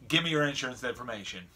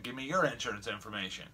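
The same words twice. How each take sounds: First: Said in the usual way. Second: "your" stressed, turning the demand back. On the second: Retold or imitated. Driver retorting to lady's insurance demand, stress on "your". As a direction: throw it back with the weight on "your".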